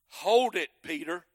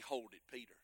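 First: It is said as a firm command. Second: It is said casually, without force.

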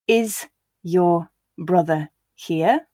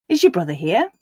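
First: Each word is said slowly and separately. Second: The words are said quickly and run together. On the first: "I'll read each sentence once slowly so you can hear the individual words" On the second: "and then at a natural pace for you to repeat"

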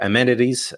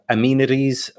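First: The word is said in a US accent. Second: The word is said in a non-US accent.

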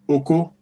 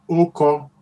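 First: The second syllable rises to a high pitch. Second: The first syllable is high, the second mid. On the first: It is a rude word for penis. "that means penis" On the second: It means he wrote it. "When you pronounce it like this, Oko means he wrote it"

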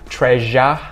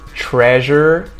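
First: The word ends with an open vowel, no R. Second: The word ends with a curled R sound. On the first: "We drop the jaw and we keep our tongue flat" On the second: "That is a very American sound with that R sound"

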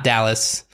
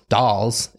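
First: It sounds like Dallas, with two syllables. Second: It sounds like dolls, with one syllable. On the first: The speaker calls it wrong. "Not Dallas" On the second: The speaker calls it right. "Pretty sure it's pronounced the Dolls"

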